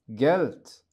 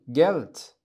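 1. تنتهي الكلمة بصوت ت مهموس. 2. تنتهي الكلمة بصوت ت مهموس.

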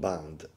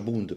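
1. La vocale è un suono 'a'. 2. La vocale è un suono 'oo'. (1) "non Band" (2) "si pronuncia Bund perché è tedesco"

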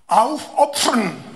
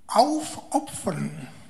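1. Hláska pf se vyslovuje plnou, plivavou silou. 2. Hláska pf se vyslovuje jemně a měkce. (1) "kdybyste to vyslovovali takzvaně plnoritně" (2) "to je potřeba vyslovovat velmi opatrně. A sice tak nejlépe trošku jako s předkysem"

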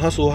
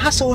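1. Der Name wird monoton und wiederholt gerufen. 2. Der Name wird lebhaft und verspielt gerufen. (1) "nicht nur Hasso, Hasso, Hasso" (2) "Seid interessant für euren Hund"

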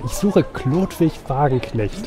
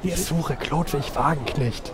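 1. Der Satz wird laut gesagt. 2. Der Satz wird leise gesagt. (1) "Nicht so laut" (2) "Viel besser"

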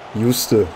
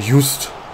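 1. Der Name endet mit einem hörbaren Vokal. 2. Der Name endet ohne Vokal am Schluss. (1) "Am Ende ist dann wahrscheinlich immer sowas wie Juste" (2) "Ich sag lieber Just. Das passt, glaube ich, besser"

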